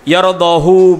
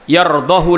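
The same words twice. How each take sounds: First: The final vowel is held long. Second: The final vowel is clipped short. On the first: "seharusnya panjang itu" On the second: "itu diikhtilaskan"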